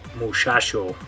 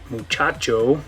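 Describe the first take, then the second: First: The consonants are sh sounds. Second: The consonants are ch sounds. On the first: "you'll hear them say it like muchacho" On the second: "instead of saying it muchacho"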